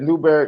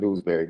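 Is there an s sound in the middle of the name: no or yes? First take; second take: no; yes. First: The name is said without an s sound. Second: The name is said with an s sound. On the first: The speaker calls it right. "That Newberry" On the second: The speaker calls it wrong. "not Newsbury"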